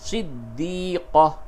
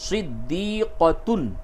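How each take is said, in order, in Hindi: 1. यह शब्द हल्की 'h' ध्वनि से खत्म होता है। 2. यह शब्द 'tun' ध्वनि से खत्म होता है।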